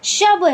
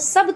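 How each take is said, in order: First: The word begins with an 'sh' sound. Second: The word begins with an 's' sound. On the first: The speaker calls it right. "शब है" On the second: The speaker calls it wrong. "सब तो नहीं कहेंगे"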